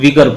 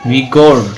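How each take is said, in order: First: The second vowel is a short reduced sound. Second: The second vowel is a full 'o' sound. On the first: The speaker calls it right. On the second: The speaker calls it wrong.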